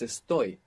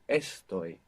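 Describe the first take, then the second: First: The stress is on the last syllable. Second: The stress is on the first syllable. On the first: The speaker calls it right. "The accent's on the ending" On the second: The speaker calls it wrong. "it's not estoy"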